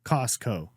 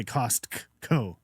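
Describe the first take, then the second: First: Said in the usual way. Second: Slow "Costco" with the T sounded separately; over-pronounced T. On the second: Shown as a demonstration. Showing what he doesn't say, "Costco" with hard T. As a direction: split "Costco" as "Cost-co", hitting the T. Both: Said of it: "I don't say Costco".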